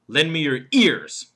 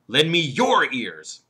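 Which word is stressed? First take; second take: ears; your. First: The stress falls on the word ears. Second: The stress falls on the word your. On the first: Lend ears rather than eyes, nose or hands. "And then there's the fourth word, ears" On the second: Give your own ears, not someone else's. "What about the third word, your?"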